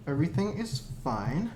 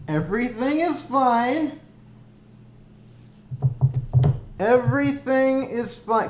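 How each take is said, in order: First: Said in the usual way. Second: Strained, manic cheer; nervous breakdown. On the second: Real, not acted. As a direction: insist it's fine, cracking. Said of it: "by me repeating that everything is fine".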